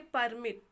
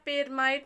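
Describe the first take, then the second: First: The second syllable sounds like 'mit'. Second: The second syllable sounds like 'mite'. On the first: The speaker calls it right. "इसको पढ़ेंगे परमिट" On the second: The speaker calls it wrong. "पेरमाइट नहीं पढ़ेंगे"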